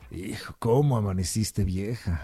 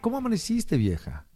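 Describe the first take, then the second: First: It is said in an annoyed tone. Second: It is said in an affectionate tone.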